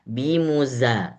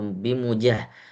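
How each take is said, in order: First: The middle consonant is a z sound. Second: The middle consonant is a j sound. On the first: The speaker calls it right. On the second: The speaker calls it wrong.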